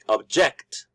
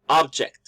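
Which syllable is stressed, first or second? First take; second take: second; first. First: The stress is on the second syllable. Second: The stress is on the first syllable. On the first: "we are stressing the second syllable" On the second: "the stress is in the first syllable"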